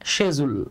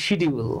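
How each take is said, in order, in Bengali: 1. এটা 'sh' দিয়ে শুরু হয় এবং 'j' এর মতো উচ্চারণ আছে। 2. এটা 'sh' দিয়ে শুরু হয় এবং স্পষ্ট 'd' আছে। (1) "এটার ব্রিটিশ উচ্চারণ হচ্ছে শেজুল" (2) "আমরা অনেকে এটাকে বলি শিডিউল"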